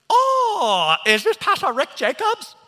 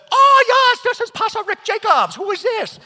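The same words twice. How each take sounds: First: High, loud imitation of an Asian-accented caller; enthusiastic Asian accent. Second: Put-on very high, shouted parody of an Asian accent; mocking Asian accent. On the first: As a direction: mimic an over-eager caller in an Asian accent. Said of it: "calling me with such enthusiasm, speaking to me in his Asian dialect". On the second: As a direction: mimic the caller's Asian accent back, hammed-up and louder. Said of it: "Thinking it was one of my friends having fun with me".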